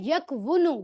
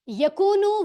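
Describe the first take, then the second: First: A clear 'w' sound is said after the 'k'. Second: The 'w' merges into a long 'oo' vowel. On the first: This is the full underlying form before simplification. "तो बनता है यकवुनु" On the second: This is the simplified standard form. "Automatically कू में वही पेश वाली आवाज आ रही है"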